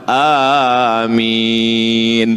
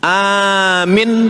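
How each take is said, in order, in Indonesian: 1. Kedua vokal panjang. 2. Vokal pertama panjang, yang kedua pendek. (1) "Yang betul yang keempat, kabulkanlah ya Allah"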